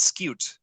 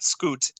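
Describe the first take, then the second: First: The word is said with a y glide before oo. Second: The word is said with a plain oo vowel. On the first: The speaker calls it right. "it is scute" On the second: The speaker calls it wrong. "It is not scoot"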